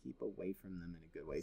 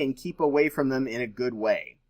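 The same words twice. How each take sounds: First: Much softer, faster, half to himself; quiet murmured repeat. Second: Said in the usual way. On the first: Shown as a demonstration. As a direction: mutter the phrase again under your breath.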